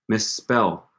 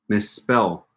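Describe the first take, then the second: No difference in how they are said.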